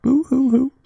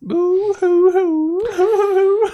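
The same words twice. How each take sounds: First: High, loud boo-hoo sob; fake crying. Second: Long drawn-out high wail; fake crying. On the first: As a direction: ham up a sobbing boo hoo. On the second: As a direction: stretch the boo hoo into a wail. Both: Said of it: "it's such convincing crying".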